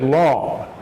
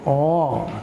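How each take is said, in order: First: The L sound is pronounced very distinctly. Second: The L sound is weak, almost like a vowel. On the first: The speaker calls it right. "we pronounce the L very distinctly" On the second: The speaker calls it wrong. "you don't pronounce the L distinctly, so you kind of said long"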